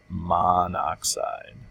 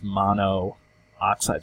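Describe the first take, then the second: First: The two O vowels merge into one syllable. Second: Both O vowels are pronounced as separate syllables. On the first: The speaker calls it right. "We actually pronounce it monoxide" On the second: The speaker calls it wrong. "if we were to pronounce this mono-oxide, sounds weird"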